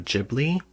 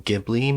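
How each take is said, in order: First: The first sound of the word is soft. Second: The first sound of the word is hard. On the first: "I pronounce it Studio Ghibli with a soft H" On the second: "maybe, if that's how you want to pronounce it"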